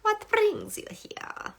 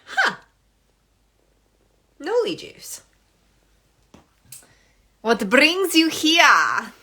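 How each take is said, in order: First: Breathy high whisper. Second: Curious viewer voice. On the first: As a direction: whisper the question slowly. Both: Retold or imitated. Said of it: "you're like".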